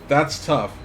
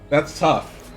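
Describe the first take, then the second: The two takes are said the same way.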